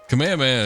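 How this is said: It is said with an American English accent. "is like the English. It's like what you say if you're just like some Yank"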